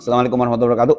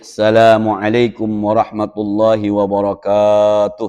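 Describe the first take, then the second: First: The vowels are kept short and quick. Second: The vowels are drawn out long. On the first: It is ordinary everyday speech. "Kalau saya, ya teman-teman" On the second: It follows the rules of Quran recitation. "Saya makanya panjang memang"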